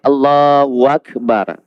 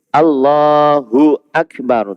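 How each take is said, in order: First: A w sound is inserted between Allahu and Akbar. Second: Allahu runs straight into Akbar with no w. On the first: The speaker calls it wrong. "Tak boleh Allahu Akbar. ... Seolah-olah ada waw antara lafaz Allah dan Akbar" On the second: The speaker calls it right. "Jadi kena betul-betul Allahu Akbar"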